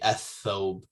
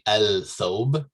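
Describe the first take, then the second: First: The L merges into a doubled th sound. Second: The L of the article is clearly heard. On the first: The speaker calls it right. "you say athob" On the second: The speaker calls it wrong. "You don't say el thob"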